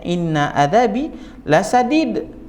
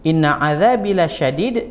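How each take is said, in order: First: The last word is said with an s sound. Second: The last word is said with an sh sound. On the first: The punishment is very gentle. The speaker calls it wrong. "dibacanya inna adzabi lasadid" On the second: The punishment is very severe. The speaker calls it right. "kalimatnya lasya lasyadid, azabku sangat keras"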